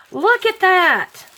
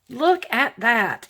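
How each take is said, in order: First: High, loud thrilled cry; excited. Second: Said in the usual way. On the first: Real, not acted. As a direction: squeal it with delight. Excited at gift.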